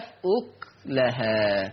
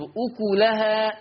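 First: Slow, lower أكلها as "uk-lahaa"; sukun on kaf. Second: أكلها as "ukulahaa"; damma on kaf. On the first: Teacher recaps Warsh's reading, أكلها with still kaf. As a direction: halt on the k of أكلها, no vowel. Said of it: "يقرأ ورش بسكون الكاف". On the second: Teacher recaps the word, أكلها with damma. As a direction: give أكلها a "u" after the kaf. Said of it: "تقرأ بضم الكاف". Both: Shown as a demonstration.

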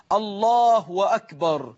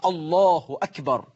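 First: الله drawn out into "Allahuu-wakbar"; damma lengthened into waw. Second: الله أكبر slow, short "hu" and short "akbar"; correct takbir. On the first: Teacher shows a worshipper's mistake, الله ending in a long "huu-wa". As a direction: stretch the end of الله into a w before أكبر. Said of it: "إشباع ضمة لفظ الجلالة حتى تتحول إلى واو". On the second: Teacher models how we say it, الله أكبر with short "hu akbar". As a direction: say الله with a short final u, then a crisp hamza on أكبر. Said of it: "أما كيف نقول". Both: Shown as a demonstration.

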